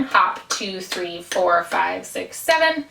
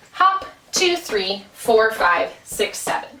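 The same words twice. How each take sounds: First: Hop, two, three, four, five, six, seven counted evenly, each beat the same length. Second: Hop, two, three, four, five, six, seven counted with the even beats punched; syncopated count. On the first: Dance teacher counting evenly to contrast the jig. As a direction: count it flat and even like a metronome. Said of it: "keeping a really even beat". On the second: Dance teacher counting the jig rhythm, even beats stressed. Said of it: "it would sound more like this". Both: Shown as a demonstration.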